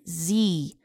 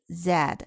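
First: The letter is said the American way, zee. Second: The letter is said the British way, zed.

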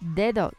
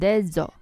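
First: The d sounds like a soft English th. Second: The d sounds like an English z.

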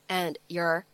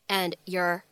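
Both takes have the same delivery.

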